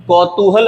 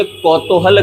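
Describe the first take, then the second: First: कौतूहल with long oo, kau-too-hal; correct pronunciation. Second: कौतूहल with o in the middle, kau-to-hal; wrong pronunciation. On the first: Teacher giving the right form, कौतूहल said as kau-too-hal. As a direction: say कौतूहल as kautoohal. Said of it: "सही है". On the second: Teacher showing the wrong form, कौतूहल said as kau-to-hal. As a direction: say कौतूहल as kautohal. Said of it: "गलत है". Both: Shown as a demonstration.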